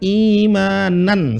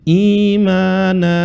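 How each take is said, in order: First: The word ends with an n sound. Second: The word ends with a long vowel. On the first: The reading continues without stopping. "seharusnya imanan" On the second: The reader stops at this word. "maka menjadi satu dan dibaca panjang"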